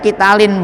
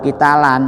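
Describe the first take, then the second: First: The word ends with an i vowel. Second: The word ends with an a vowel. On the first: The speaker calls it right. "ini dibacanya kitalin" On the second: The speaker calls it wrong. "enggak boleh kitalan"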